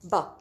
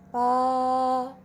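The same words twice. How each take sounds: First: It is said with the fourth tone. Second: It is said with the first tone. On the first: "And the fourth one" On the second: "the first tone"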